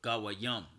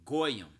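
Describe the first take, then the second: First: The word is said in three syllables. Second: The word is said in two syllables. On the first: This is the proper form. The speaker calls it right. "That's the proper way of saying it" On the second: This is the form one group commonly uses. The speaker calls it wrong. "that's what the small hatters say"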